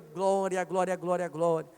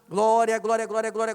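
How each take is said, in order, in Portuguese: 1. As palavras são repetidas em ritmo normal. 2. As palavras são repetidas em ritmo rápido.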